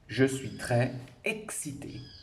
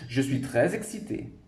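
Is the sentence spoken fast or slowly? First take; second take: slowly; fast. First: It is spoken slowly and carefully. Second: It is spoken fast with the words linked.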